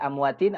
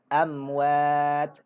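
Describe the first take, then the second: First: The word ends with an in sound. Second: The word ends on a bare t sound. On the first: The speaker calls it wrong. "tidak dibaca" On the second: The speaker calls it right. "tapi baca"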